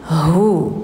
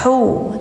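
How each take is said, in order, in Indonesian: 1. Bunyi h berat, dari dalam tenggorokan. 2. Bunyi h ringan, dari depan. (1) "hanya besar tenggorokan dalam" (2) "enggak hu"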